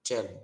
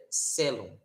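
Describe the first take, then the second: First: Cellum said with ch at the start; ch sound on cellum, Italian way; ecclesiastical Latin. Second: Cellum said with an s sound at the start; classical Latin. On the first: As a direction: cellum as tche-lo, church style. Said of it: "a gente vai pronunciar como". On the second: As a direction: cellum as in Portuguese, se-lo. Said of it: "seria cellum". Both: Shown as a demonstration.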